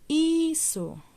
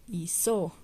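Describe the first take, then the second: First: Hizo with a high, long first HI; HIII-zo, start high, drop on zo; stress on first syllable. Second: Hizo misstressed as hi-ZÓ; hi-ZÓ, weight on the last syllable; wrong stress on final syllable. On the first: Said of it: "el acento iría al, al principio". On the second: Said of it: "en dónde lleva el acento". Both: Shown as a demonstration.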